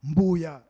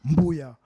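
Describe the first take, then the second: The two takes are said the same way.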